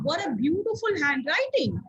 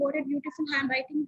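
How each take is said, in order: First: It is said loudly in a raised, lively voice. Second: It is said quietly in a flat voice. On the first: The speaker calls it right. "how it changes the atmosphere" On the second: The speaker calls it wrong. "that doesn't sound good"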